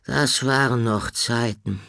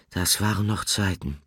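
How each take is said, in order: First: Higher, louder wistful sigh of a character; mildly wistful character voice. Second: Understated sighing. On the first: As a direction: remember good old days with longing. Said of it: "sagte Horn wehmütig". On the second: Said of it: "seufzte Nickel". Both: Acted.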